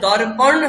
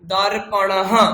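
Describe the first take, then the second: First: The word ends on a bare consonant. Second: The word ends on a full vowel and breath. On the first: The speaker calls it wrong. "দর্পণ হবে না" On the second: The speaker calls it right. "অকারের উচ্চারণ পুরো হবে"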